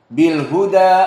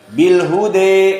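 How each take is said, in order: First: The final vowel is an open a sound. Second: The final vowel leans toward an e sound. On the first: "ini fathah maknanya" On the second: "al-imalah al-kubra"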